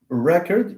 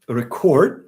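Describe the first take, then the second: First: The stress is on the first syllable. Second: The stress is on the second syllable. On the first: The word is used as a noun. "if it's a noun, it's just record. You stress this" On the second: The word is used as a verb. "If it's a verb, you stress the second part"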